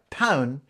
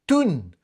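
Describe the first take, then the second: First: The vowel is a standard 'ow' diphthong. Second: The vowel is a Geordie 'oo' sound. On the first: "you could say something like town" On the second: "becomes toon"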